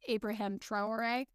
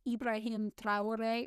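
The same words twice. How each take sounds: First: The name is said in a strongly American way. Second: The name is said in a non-American way. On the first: The speaker calls it wrong. "I'm going to pronounce it the very American way" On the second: The speaker calls it right. "I think that's technically pronounced like"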